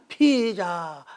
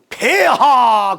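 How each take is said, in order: First: It is pronounced like 'pizza', Chinese-accented. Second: It is pronounced the standard Korean way. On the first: "근데 중국은 발음이 안 되나 봐. 피자, 피자, 피자 그런단 말이야" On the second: "우리는 폐하 그러잖아요"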